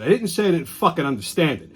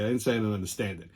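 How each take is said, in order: First: Snapped at the clerk. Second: Fast and softer, lower, thrown away; quickly re-explain it to yourself, softer and lower; retelling the line afterward, fast and softer; muttered restatement. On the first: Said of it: "So I said". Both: Retold or imitated.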